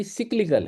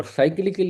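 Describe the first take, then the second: First: سکلیکل as SIK-li-kal; short "i" opening in سکلیکل instead of "sai"; English pronunciation. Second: سائیکلیکل as SAI-kli-kal; Urdu-style pronunciation. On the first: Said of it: "وہاں اصل جو pronunciation ہے". (سکلیکل کو چھوٹی زیر سے "سِک-لی-کل") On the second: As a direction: keep the "sai" of cycle in سائیکلیکل. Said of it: "سائیکلیکل انگریزی pronunciation میں نہیں بنتا". (سائیکلیکل کو "سائی" کے ساتھ بولیں) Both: Shown as a demonstration.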